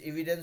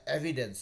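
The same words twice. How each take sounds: First: The first vowel is a long 'ee' sound. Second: The first vowel is a short 'e' sound. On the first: The speaker calls it wrong. "हम लोग एविडेंस एविडेंस बोल देते हैं" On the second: The speaker calls it right. "लेकिन ये हमेशा एविडेंस है"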